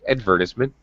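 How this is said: It is said in a British accent. "British pronunciation is, in fact"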